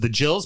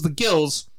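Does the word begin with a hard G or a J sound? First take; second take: J sound; hard G. First: The word begins with a soft J sound. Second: The word begins with a hard G sound. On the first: This is the expected but wrong nickname. The speaker calls it wrong. "You would think they call themselves the Jills" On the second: This is the nickname actually used. The speaker calls it right. "but no, they call themselves the Gills"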